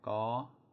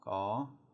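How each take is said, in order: No difference in how they are said.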